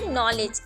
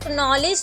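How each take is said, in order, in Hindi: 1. यह word N sound से शुरू होता है। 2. यह वर्ड बोले जाने वाले K साउंड से शुरू होता है। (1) "हम इसे रीड करते हैं नॉलेज" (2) "अब हम इसे नॉलेज तो नहीं रीड करेंगे"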